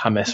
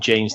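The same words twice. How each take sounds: First: The name is said with Spanish sounds. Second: The name is said with English sounds. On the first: The speaker calls it right. "the Spanish element" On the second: The speaker calls it wrong. "Anglophile pronunciations"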